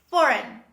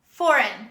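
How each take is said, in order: No difference in how they are said.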